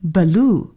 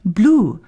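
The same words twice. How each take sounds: First: BLUE split as buh-LOO; wrong added vowel. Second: BLUE as one syllable, b gliding straight into l; correct cluster. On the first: Radio English teacher warns listeners, wrong "blue" said as "buh-loo". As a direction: put a short schwa between b and l in "blue". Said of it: "而不能读成blue". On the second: Radio English teacher shows listeners the cluster, correct "blue" with b-l joined. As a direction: say "blue" with no vowel between b and l. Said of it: "也就是要读成blue". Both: Shown as a demonstration.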